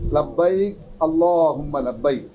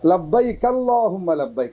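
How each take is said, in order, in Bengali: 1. প্রথম শব্দের পরে একটু থামা হয়। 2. শব্দগুলো কোনো বিরতি ছাড়াই একসাথে বলা হয়। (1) "একটু থেমে" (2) "আপনি থামবেন না, একসাথে বলবেন"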